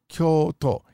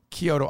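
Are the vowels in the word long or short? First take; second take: long; short. First: The vowels are held long. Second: The vowels are kept short. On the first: This is how it is said in Japan. The speaker calls it right. "It's Kyoto. You must lengthen it" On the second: This is how it is said in America. The speaker calls it wrong. "in America, we tend to say Kyoto"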